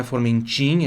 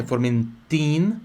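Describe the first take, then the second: First: "Formentin" ending in Brazilian "chin"; soft "chin" ending. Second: Slow "Formentin" with a crisp "tin"; hard T ending. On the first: Teacher showing the mistake to avoid, "chin" ending. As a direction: say "Formentin" wrongly as "For-men-chin". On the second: Teacher correcting the ending for students, hard T. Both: Shown as a demonstration. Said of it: "Pronúncia por do ti aqui".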